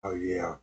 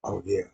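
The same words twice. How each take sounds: First: Low sultry voice. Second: A smoky come-on; low sultry voice. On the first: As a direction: drop it even lower, softer. Low seductive club voice repeated. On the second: Low seductive club voice. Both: Acted.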